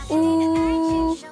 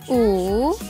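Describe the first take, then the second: First: It is said with the first tone. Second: It is said with the third tone. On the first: "bentuk pertama" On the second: "Bentuk ketiga"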